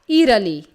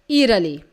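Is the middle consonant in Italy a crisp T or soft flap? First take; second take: soft flap; soft flap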